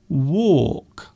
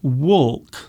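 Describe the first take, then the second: First: No L sound is pronounced before the K. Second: An L sound is pronounced before the K. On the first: The speaker calls it right. "So the L is silent. You say walk" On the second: The speaker calls it wrong. "So you don't say walk"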